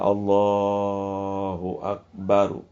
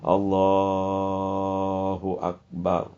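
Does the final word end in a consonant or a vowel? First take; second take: vowel; consonant. First: The last word ends with an added vowel sound. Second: The last word ends on a bare consonant. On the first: The speaker calls it wrong. "Jangan Allahu Akbaru. Jangan" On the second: The speaker calls it right. "dibacanya sukun, dimatikan saja"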